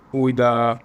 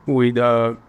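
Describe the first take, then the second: No difference in how they are said.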